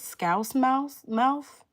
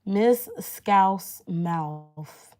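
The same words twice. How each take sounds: First: "Scouse Mouse? Mouth?" high and loud, as questions; questioning guess. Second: "Miss Scouse Mouth" very slow and loud, word by word; careful sounding-out. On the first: Streamer checking how a viewer's username goes, questioning. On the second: Streamer attempting a viewer's full username, careful and drawn-out. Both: Real, not acted. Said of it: "Did I pronounce that right?".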